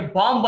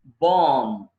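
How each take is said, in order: First: బాంబ్ with the final b sounded; mistaken pronunciation. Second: బాంబ్ said "bom", no final b; silent b. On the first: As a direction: voice the last b of బాంబ్. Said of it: "బాంబ్ అనకూడదు". (బాంబ్ చివర "బ్" పలుకుతూ) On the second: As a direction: let బాంబ్ end on a long m. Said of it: "బి silent అండి". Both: Shown as a demonstration.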